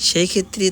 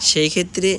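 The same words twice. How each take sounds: No difference in how they are said.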